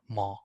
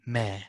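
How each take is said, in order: First: The m sound is said heavy. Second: The m sound is said thin. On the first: The speaker calls it wrong. "We don't like this" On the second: The speaker calls it right. "Meme is one of the letters that is always simplified"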